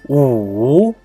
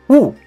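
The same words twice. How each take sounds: First: The pitch dips down and then rises. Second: The pitch falls sharply from high to low. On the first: "The third tone is U" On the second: "The last tone is U"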